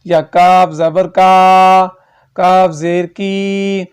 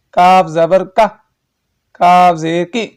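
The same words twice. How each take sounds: First: کاف زبر کا dragged out slowly; overstretched wrong reading. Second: کاف زبر کا clipped with a jolt; jerky wrong reading. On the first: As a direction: drag کاف زیر کی far too long. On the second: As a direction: snap کاف زیر کی out with a jerk. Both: Shown as a demonstration. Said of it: "ایسے نہیں پڑھنا".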